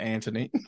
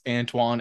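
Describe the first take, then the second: First: The name is said like Anthony. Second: The name is said like Antoine.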